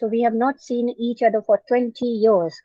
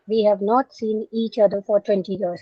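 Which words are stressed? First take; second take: twenty years; none. First: Extra stress falls on twenty years. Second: No words are given extra stress.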